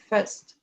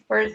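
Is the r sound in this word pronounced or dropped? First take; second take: Dropped; Pronounced. First: The r sound is dropped. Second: The r sound is clearly pronounced. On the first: "they're not going to pronounce the R the way we do" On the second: "they don't say first"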